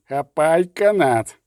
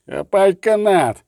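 First: A slower, milder second roar. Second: Loud, slow roared command; roaring. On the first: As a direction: repeat the order, urgent. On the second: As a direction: bellow it across the water. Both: Acted. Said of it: "ричав Ольсен".

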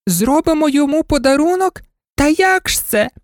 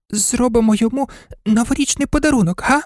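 First: Very high, incredulous doll squeal; mocking dolls. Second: High, quick little dog voice; toy dog proposing. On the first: A narrator's reading. Dolls scoffing at the dog's idea, very high and amused. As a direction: echo it back high, as a scoffing question. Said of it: "зареготали ляльки". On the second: Acted. Toy dog suggesting a gift to the others, high and quick. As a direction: float the idea eagerly in a high voice.

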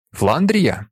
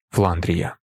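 First: "Фландрія" as a question, pitch swelling high then falling. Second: "Фландрія" low and level, as a short answer; answering statement. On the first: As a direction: ask "Фландрія" with a high arch in the middle. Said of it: "питає він". (запитально, «Фландрія» з підйомом тону) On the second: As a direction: confirm with a lowered, even "Фландрія". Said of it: "відповідає Альберт". (ствердно, «Фландрія» низьким рівним тоном) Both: A narrator's reading.

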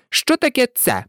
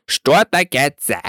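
First: High, testy mouse question; rather irritated. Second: Duck character. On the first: Mouse challenging the duck, rather irritated. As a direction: put it testily in a high voice. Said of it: "досить роздратовано відповіла миша". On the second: Duck replying to the irritated mouse, matter-of-fact. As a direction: answer as a duck, pitched under the mouse. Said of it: "сказала качка". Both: A narrator's reading.

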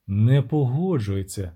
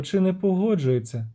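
First: Sung, low, slow witcher intoning; sung-out reply. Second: Lightly lilting siren question; siren's singsong question. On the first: Sung, witcher answers the siren no, intoning. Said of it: "проспівав у відповідь відьмак". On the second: Siren asks whether the man agrees, lilting. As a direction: ask it with a light sing-song lift. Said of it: "заспівала вона". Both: Acted.

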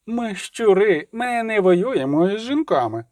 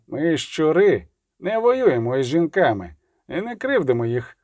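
First: High, slow mimicking taunt; mocking echo, pitched high; grinning mockery. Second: Said in the usual way. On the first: A narrator's reading. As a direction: parrot it with a toothy grin. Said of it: "знову вишкірив зуби Келі".

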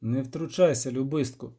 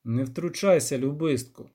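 First: Even, unmoved rebuke; calm witcher. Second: Composed, unhurried check on a friend; calm voice. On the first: Acted. Witcher reining in the poet once more, calm. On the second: A narrator's reading. Witcher reining in the poet, calm. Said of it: "сказав Геральт спокійним голосом".

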